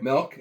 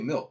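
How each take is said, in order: First: The vowel sounds like the e in 'bet'. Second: The vowel sounds like the i in 'bit'. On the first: "M E L K" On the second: "M I L K"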